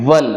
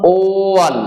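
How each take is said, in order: First: The word starts with a w-like consonant sound. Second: The word starts with a separate clear o vowel. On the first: The speaker calls it right. "ওপরের যে দাঁত দুটো আছে... সেটা কিন্তু কোথাও না কোথাও ঠোঁটে হালকা ঠেকাতে হচ্ছে।" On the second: The speaker calls it wrong. "এর উচ্চারণ কিন্তু ও ওয়ান এরম হয় না।"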